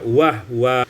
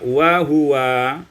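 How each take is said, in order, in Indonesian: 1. Huruf h menutup suku kata tanpa vokal. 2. Ada vokal yang terdengar setelah h.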